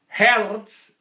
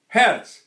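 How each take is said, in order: First: It is tense and pressed in the throat. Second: It is relaxed and placed low without throat tension. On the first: The speaker calls it wrong. "it's very busy" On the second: The speaker calls it right. "Now it's down here"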